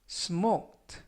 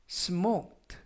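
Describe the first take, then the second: Both takes have the same delivery.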